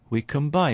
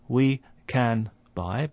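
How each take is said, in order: First: The end of can sounds like an m. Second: The end of can sounds like a clear n. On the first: The speaker calls it right. "it starts to resemble a M sound" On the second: The speaker calls it wrong. "So it's not we can buy"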